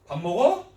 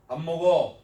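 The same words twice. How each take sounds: First: 밥 먹어 with a sharp rise on the last syllable; 밥 먹어, loud and swinging up at the end; questioning intonation. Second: 밥 먹어 with no final rise, settling down; 밥 먹어 as a level statement, closing downward; statement intonation. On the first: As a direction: ask 밥 먹어 as a question, louder. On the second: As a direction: state 밥 먹어 evenly, letting the end fall. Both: Shown as a demonstration. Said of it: "이런 억양에 따라서".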